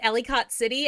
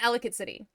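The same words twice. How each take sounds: First: The name is pronounced fully, as it is spelled. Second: The name is squeezed together in the middle. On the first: Outsiders say it this way. The speaker calls it wrong. "people in like movies and T V shows calling it" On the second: Locals say it this way. The speaker calls it right. "you meant Ellicott City"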